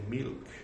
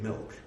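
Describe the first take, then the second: First: It is said in an Indian accent. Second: It is said in an American accent.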